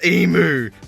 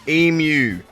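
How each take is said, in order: First: The second syllable sounds like 'oo'. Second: The second syllable sounds like 'you'. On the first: The speaker calls it wrong. "not emu. Please stop saying that" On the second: The speaker calls it right. "It is eam, and then it is you, like you"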